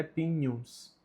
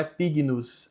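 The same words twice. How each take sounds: First: "pignus" with gn as a Portuguese nh, "pinhus"; correct Latin pronunciation. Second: "pignus" with a hard g before the n, "pig-nus"; wrong Latin pronunciation. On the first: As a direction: soften the gn of "pignus" into one "ny" sound. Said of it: "o G com o N tem som de N H". ("pignus" com som de nh, "pinhus") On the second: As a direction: say "pignus" with g and n pronounced separately. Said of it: "a pronúncia em latim correta é pignus". ("pignus" com o g duro, "pig-nus") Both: Shown as a demonstration.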